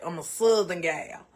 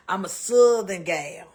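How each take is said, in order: First: Said in the usual way. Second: GAL drawn out, slow and louder; emphatic repeat. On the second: Real, not acted. Cook telling viewer Kevin who she is, emphatic. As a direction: proudly stretch out "Southern gal", louder.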